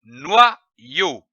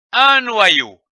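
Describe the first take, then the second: First: "noyau" split in two, noi, yau, with a pause; syllable by syllable. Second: "noyau" joined up, higher and louder; whole word. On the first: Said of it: "L'association de ces deux syllabes". (« noyau » en deux syllabes détachées) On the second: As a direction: say "noyau" in one go, firmly projected. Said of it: "le mot noyau". (« noyau » d'un seul tenant, plus haut et plus fort) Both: Shown as a demonstration.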